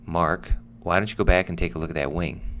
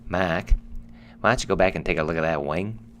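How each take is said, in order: First: It is said in the speaker's usual accent. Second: It is said in an imitated Australian accent.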